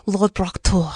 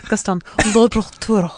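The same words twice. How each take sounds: First: Strangled French accent attempt. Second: Choked Gaston-style French accent. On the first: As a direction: say it like choking on chicken. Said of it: "it still sounds like you're choking on chicken". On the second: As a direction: strain the words out like choking. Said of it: "I had to pretend I'm from, like, the Gaston". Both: Shown as a demonstration.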